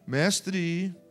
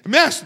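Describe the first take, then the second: First: The word is said calmly, without shouting. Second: The word is shouted loudly. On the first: "não foi assim" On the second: "é gritando"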